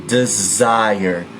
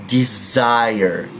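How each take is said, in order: The two takes are said the same way.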